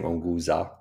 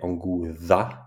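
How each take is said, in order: First: The name is said smoothly as one word. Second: The final Z part is said the Herero way. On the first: "We're simply saying Onguza as one" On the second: "even though in Herero, the Z at the end, they say Onguza"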